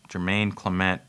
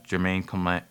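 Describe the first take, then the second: No difference in how they are said.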